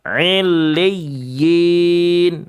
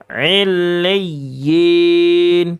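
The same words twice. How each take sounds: No difference in how they are said.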